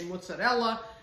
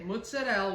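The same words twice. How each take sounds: First: Standard style, final vowel pronounced. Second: Northern New Jersey style, final vowel dropped.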